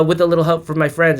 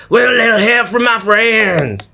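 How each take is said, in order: First: Said in the usual way. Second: Mock slurred singing of a singer, higher; imitating a singer. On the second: Host mocks a singer's song, slurred impression. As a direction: slur the lyric like a singer. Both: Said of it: "talk like that".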